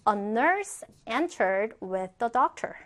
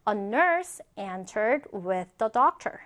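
Both takes have the same delivery.

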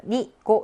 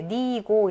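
First: NI and GO cut short in "니고"; quick, short syllables on "니고"; short vowels. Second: NI and GO each drawn out in "니고"; "니고" read as two long syllables; long vowels. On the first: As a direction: say "니고" with two brief vowels. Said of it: "이렇게 짧게 안 읽고". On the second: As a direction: hold both vowels of "니고" long. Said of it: "장음으로 이렇게 읽어주는". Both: Shown as a demonstration.

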